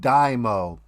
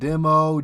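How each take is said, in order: First: The first syllable rhymes with 'die', like dyno. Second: The first syllable does not rhyme with 'die'. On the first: The speaker calls it right. "It's called Dymo. ... like you put your car on a dyno" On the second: The speaker calls it wrong. "It's not demo"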